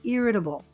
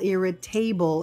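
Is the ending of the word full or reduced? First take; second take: reduced; full. First: The ending is said as a weak, reduced syllable. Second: The ending is said as a full 'able'. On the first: The speaker calls it right. "It sounds like irritable" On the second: The speaker calls it wrong. "it doesn't sound like an able"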